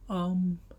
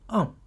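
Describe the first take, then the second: First: The syllable is said with the first tone. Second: The syllable is said with the fourth tone.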